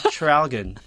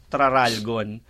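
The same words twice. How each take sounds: First: Traralgon with a short blurred first syllable, t-ralgon; correct Traralgon. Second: Traralgon read as spelt, every syllable even; misread Traralgon. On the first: Host giving the real Traralgon. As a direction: slur the start of Traralgon. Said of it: "Ganun pala siya i-pronounce". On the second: Host recalling how Traralgon first read. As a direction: read Traralgon straight off the page. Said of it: "nung binasa ko". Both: Shown as a demonstration.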